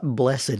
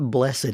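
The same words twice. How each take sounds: First: The word is said in a formal, churchy way. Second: The word is said in a formal, churchy way.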